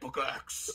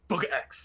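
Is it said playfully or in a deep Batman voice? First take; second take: Batman voice; playfully. First: It is said in a deep Batman voice. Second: It is said in a light, playful voice.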